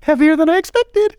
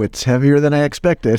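First: It is said in a high-pitched voice. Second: It is said in a normal-pitched voice.

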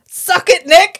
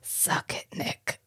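First: The phrase is said at full volume. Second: The phrase is said in a low undertone.

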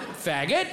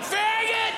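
First: The word is said flatly and calmly. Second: The word is yelled loudly.

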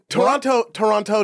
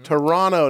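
First: The second t is clearly pronounced. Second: The second t is dropped. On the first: The speaker calls it wrong. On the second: The speaker calls it right.

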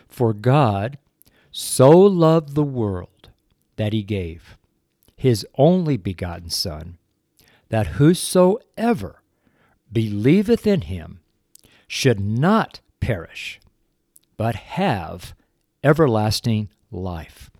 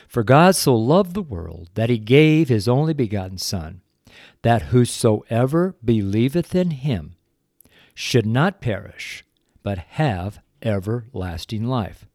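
First: It is read slowly. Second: It is read at a normal pace.

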